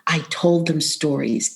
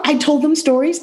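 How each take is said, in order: First: "told" pressed down, falling and softer; stress on told. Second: "them" lifted high and rising; stress on them. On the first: Correcting herself to the interviewer, weight on "told". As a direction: hit "told" to set it against reading. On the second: Telling the job coach who heard the stories, stress on "them". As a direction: lean on "them" as if it's news. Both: Shown as a demonstration. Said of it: "I didn't read to them".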